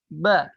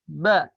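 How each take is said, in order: No difference in how they are said.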